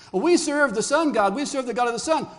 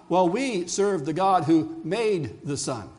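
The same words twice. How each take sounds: First: Higher, louder mock boast; acted boast. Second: Slow, weighty answer leaning on "made the sun"; measured comeback. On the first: Pagan cultures telling Israel of their god, high loud boast. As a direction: proclaim it high and loud as a rival worshipper. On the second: Acted. People of Israel answering the pagans, slow measured comeback on "made". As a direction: draw out "made" slowly, in a usual pitch.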